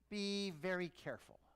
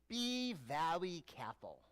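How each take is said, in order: First: It is said in his normal voice. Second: It is said in an Elmer Fudd voice.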